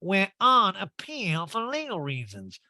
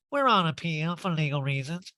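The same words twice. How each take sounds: First: Slow, high, drawn-out mock repeat; exaggerated slow law talk, pitched way up; [name]. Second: Higher put-on legal talk; mock official answer, pitched up; [name]. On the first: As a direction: spell it out word by word, affectedly. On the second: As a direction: quote it in an affected voice. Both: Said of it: "Erica just speaks in law talk now".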